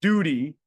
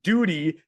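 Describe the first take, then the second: First: Duty, punched louder and set apart; stress on duty. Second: Duty, punched louder for note-takers; stress on duty. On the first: Coach giving the men the key phrase, louder Duty. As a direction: hit Duty firmly, then pause. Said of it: "a simple phraseology". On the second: Coach repeating for those taking notes, loud duty. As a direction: land duty hard and clear. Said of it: "For those of you that are writing notes". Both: Shown as a demonstration.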